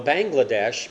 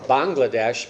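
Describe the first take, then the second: First: "Bangladesh" opening like English "bang"; common mispronunciation. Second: "Bangladesh" opening with an open "bahng"; correct native pronunciation. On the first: Preacher showing the name that means land of the frogs, "Bangladesh" mispronounced as BANG-gla-desh. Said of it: "everyone tries to pronounce as". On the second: Preacher correcting the country's name for the congregation, "Bangladesh" said as BAHNG-la-desh. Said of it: "Bangladesh is the correct pronunciation". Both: Shown as a demonstration.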